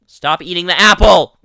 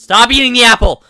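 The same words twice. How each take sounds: First: Loud frustrated yell; yelling stop. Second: High, loud exasperated shout; exasperated yell. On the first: Gamer yelling at someone eating the apple, frustrated. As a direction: shout it to make them quit. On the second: Gamer yelling again at someone eating the apple, exasperated. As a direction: scream it louder in frustration. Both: Real, not acted.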